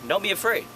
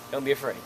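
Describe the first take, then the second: First: Louder, higher urging; emphatic. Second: Said in the usual way. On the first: Shown as a demonstration. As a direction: push it with energy. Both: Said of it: "just go crazy with it".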